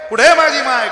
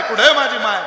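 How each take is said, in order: First: Loud, high wail on "कुठे", falling at the end; desperate sobbing question to the crowd; crying for mother. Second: The echoing second cry, a little less loud; tearful repeated plea, trailing down; crying for mother. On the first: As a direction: cry "कुठे माझी माय" as a lost child wailing. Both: Acted. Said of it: "रडत होतं".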